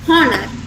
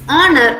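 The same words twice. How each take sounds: First: The word starts with an h sound. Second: The word starts without an h sound. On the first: The speaker calls it wrong. "instead of" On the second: The speaker calls it right. "The H sound here is silent"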